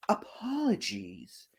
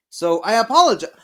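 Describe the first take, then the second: First: Soft unvoiced whisper; whispered apology. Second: Said in the usual way. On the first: Playful apology to viewers.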